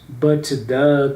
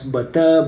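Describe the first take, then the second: First: The final T of 'but' is pronounced. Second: The final T of 'but' is dropped. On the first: The speaker calls it wrong. "Not but the ... You don't do that" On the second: The speaker calls it right. "you can cut out the final T and D"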